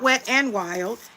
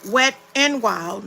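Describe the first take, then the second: First: The middle word is a short reduced n. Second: The middle word is the full letter name. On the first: The speaker calls it wrong. "not Wet n Wild" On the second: The speaker calls it right. "It's Wet N, like the N"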